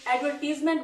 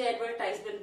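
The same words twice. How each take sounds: First: एडवर्टीजमेंट, third syllable as "tiz", not "tize"; "tease" pronunciation. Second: एडवर्टाइजमेंट, long "eye" vowel in the third syllable; "tize" pronunciation. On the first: Teacher quoting how some children say it, एडवर्टीजमेंट with "teez". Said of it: "कुछ बच्चे एडवर्टीजमेंट बोलते हैं". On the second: Teacher quoting how other children say it, एडवर्टाइजमेंट with "ties". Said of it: "कुछ बच्चे एडवर्टाइजमेंट बोलते हैं". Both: Shown as a demonstration.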